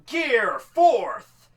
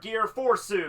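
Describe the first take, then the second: First: Fourth is said in plain English style. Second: Fourth is said with a Japanese-style added vowel.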